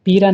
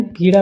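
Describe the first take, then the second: First: पीरा with plain r for the flap; mispronunciation. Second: Said in the usual way. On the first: Shown as a demonstration. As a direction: say पीरा, no ड़ sound. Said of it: "पीरा नहीं". (पीरा में 'ड़' की जगह 'र') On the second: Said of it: "पीड़ा होता है".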